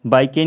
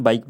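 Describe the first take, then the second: First: बाइक के run together as "bai-kay"; wrong reading, final e sounded. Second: बाइक ending right on the k; correct silent-e reading. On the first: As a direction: add an "ay" after the k in बाइक के. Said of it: "नहीं पढ़ेंगे इसे हम". (बाइक के को "बाइके" जैसे जोड़कर) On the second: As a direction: say बाइक as one syllable, no vowel at the end. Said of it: "बाइक बोलेंगे". (बाइक में आख़िरी ई silent) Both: Shown as a demonstration.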